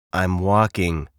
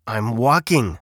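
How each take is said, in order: First: Mildly grumpy, falling tone; lightly voiced glum bird; a touch of grumbling. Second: Slightly testy grumpy bird; a touch of irritation; mild snap. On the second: A narrator's reading. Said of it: "snapped Bird".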